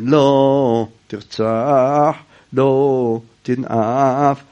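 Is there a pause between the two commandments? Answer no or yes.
yes. A pause separates the two phrases. Each commandment is read as its own verse. "אנחנו קוראים"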